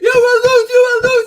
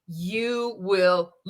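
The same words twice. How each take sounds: First: It is said loudly and explosively. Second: It is said quietly and calmly. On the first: The anger finally breaks out. "and then he snaps" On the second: The anger is being held back. "he likes to make it a little bit calm, the calm before the storm"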